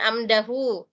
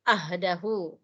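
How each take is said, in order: First: The consonant after the first vowel is m. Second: The consonant after the first vowel is h. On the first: The speaker calls it wrong. "Jadi bukan amdahu" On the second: The speaker calls it right. "padahal ini ha"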